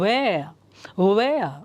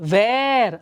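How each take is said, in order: First: The word starts with a w sound, lips rounded. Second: The word starts with a v sound, lips unrounded. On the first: The speaker calls it right. "Round your lips" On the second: The speaker calls it wrong. "ಅಲ್ಲ"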